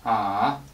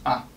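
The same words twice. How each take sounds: First: The pitch dips low, then comes back up. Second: The syllable is short, light and lazy. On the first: "drag your voice down and release it" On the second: "lazy, short"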